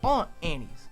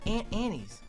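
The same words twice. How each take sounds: First: Aunt sounds like ont, with a broad vowel. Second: Aunt sounds like the insect ant. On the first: The speaker calls it right. "It's Aunt Annie's, right?" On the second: The speaker calls it wrong. "if you say aunt, you have Aunt Annie's"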